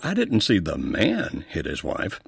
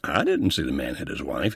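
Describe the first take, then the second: First: The stress is on the word man. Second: The stress is on the word I. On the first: Someone other than the man may have done it. "So now maybe it wasn't the man that we we're talking about" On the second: Someone else may have seen it. "he emphasized that first word, I"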